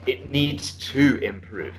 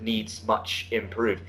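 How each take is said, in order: First: Slow model of "It needs to improve"; the corrected phrase. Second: Slow, softer quote of "needs much improve"; quoting the student's error. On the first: Shown as a demonstration. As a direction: give the fix "It needs to improve" at a slow pace. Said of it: "you see what I'm saying?". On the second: Retold or imitated. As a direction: read the student's error back slowly. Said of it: "at one point you said".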